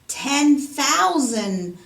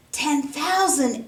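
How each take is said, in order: First: Loud and very slow, each word hammered; loud answer. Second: Slow, gasping crowd astonishment; a shocked crowd echoing the sum; astonished exclaim. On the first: Treasurer answers the king, loud and drawn out. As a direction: announce the sum slowly and loudly. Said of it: "the treasurer's answer was loud". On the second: Crowd gasps at the debt, slow and astonished. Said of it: "exclaimed everyone in the crowd". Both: A narrator's reading.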